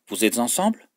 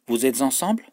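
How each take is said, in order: No difference in how they are said.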